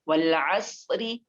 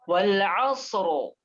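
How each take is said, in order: First: The r is light and followed by an i vowel. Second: The r is heavy and the word stops there. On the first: The reader joins on to the next words. "kalau kita wasal karena itu ra-nya kasroh" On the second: The reader pauses at the end of the word. "kalau kita wakafkan, ya, maka terjadi tafkhim di situ"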